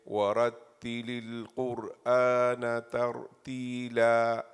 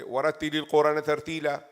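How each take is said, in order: First: The words are separated by short pauses between them. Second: The words are joined without pauses between them.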